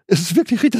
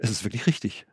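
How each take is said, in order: First: Emphatic conviction. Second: Much softer, almost to himself; quiet inner conviction. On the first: Preacher voicing his inner knowing, lifted and emphatic. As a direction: proclaim it with sudden certainty. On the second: Preacher voicing his inner knowing, hushed and soft. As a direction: say it quietly, as a private certainty. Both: Retold or imitated. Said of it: "dass ich sage".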